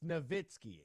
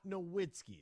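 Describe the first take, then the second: First: The name is said in the accepted pronunciation. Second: The name is said in a rejected pronunciation. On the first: The speaker calls it right. "It's Nowitzki" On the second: The speaker calls it wrong. "It's not Nowitzki. That's not how you pronounce it"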